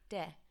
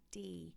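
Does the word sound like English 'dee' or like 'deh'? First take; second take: deh; dee. First: The vowel is said like a short 'eh'. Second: The vowel is said like English 'ee'. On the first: The speaker calls it right. "let's pretend that there's an H after this E" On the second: The speaker calls it wrong. "pronounce it like D"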